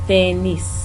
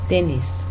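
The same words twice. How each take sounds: The two takes are said the same way.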